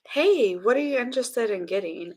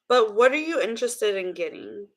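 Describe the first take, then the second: First: It is said in a sexy voice. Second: It is said in a plain voice.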